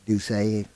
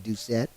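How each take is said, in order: First: The surname is said with a French pronunciation. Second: The surname is said with a local, anglicized pronunciation. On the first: "I'm going with the French pronunciation" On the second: "I think Morgan City would be"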